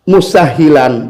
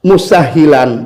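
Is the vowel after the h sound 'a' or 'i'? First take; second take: i; i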